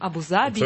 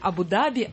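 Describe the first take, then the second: First: The last syllable starts with a z sound. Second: The last syllable starts with a d sound. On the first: "вот это Д или З" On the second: "вот это Д или З"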